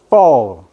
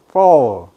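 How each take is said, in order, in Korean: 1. 이 단어는 f 소리로 시작해요. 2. 이 단어는 f 소리로 시작해요.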